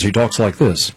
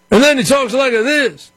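First: Said in the usual way. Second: Much higher, put-on Obama impression; mock Obama crowd voice. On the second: Shown as a demonstration. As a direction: switch to his other voice, pitched way up.

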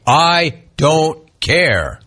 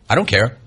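First: "I... don't... care", each word drawn out and separate; very slow, pausing between "I", "don't" and "care"; word-by-word emphasis. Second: Mimicking an offhand, lower reply; dismissive quote. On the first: Retold or imitated. Spells out the quote for emphasis. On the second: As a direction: toss it off as an imitation. First quote of player's answer.

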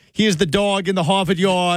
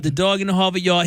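First: Put-on Boston accent. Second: Put-on echoing a Boston accent. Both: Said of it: "typed out in Boston accent".

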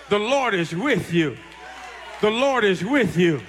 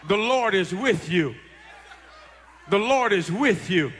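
Both takes have the same delivery.

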